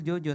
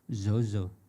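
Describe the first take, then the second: First: The name starts with a J sound. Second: The name starts with a Z sound, Medan-style.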